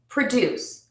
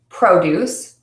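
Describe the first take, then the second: First: The stress is on the second syllable. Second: The stress is on the first syllable. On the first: It is used as a verb. "The second syllable is stressed" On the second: It is used as a noun. "the first syllable is typically stressed in nouns"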